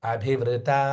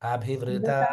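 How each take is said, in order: Both takes have the same delivery.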